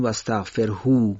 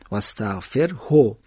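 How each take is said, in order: First: واستغفرهو با هوی کشیده، نادرست; واستغفرهو را اشتباه و کشیده بخوان; wrong lengthened form. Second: واستغفرهو را کوتاه و درست و آهسته بخوان; correct short form, slow. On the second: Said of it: "اشباع نمیشه". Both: Shown as a demonstration.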